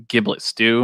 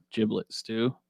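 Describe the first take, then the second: First: "giblet" with a hard g, as in give. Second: "giblet" with a soft g, like jiblet. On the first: Offering their own version for the stew, "giblet" with a hard g. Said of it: "giblets weird. You say giblets". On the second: Offering the friend's version for the stew, "giblet" with a j sound. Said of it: "You say giblets". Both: Shown as a demonstration.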